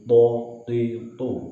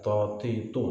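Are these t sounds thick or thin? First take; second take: thick; thin. First: The t sounds are clean and thick. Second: The t sounds are thin and light. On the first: The speaker calls it right. "bersih dengan suara tebal" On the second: The speaker calls it wrong.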